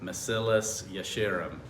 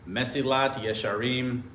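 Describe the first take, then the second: First: The first word ends with an s sound. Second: The first word ends with a t sound.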